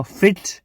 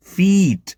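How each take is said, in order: First: ફિટ with a short, quick i; short vowel. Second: ફીટ with a long ee, as in feet; long vowel. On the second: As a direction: stretch the ee in ફીટ. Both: Shown as a demonstration. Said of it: "આ ફરક પડશે".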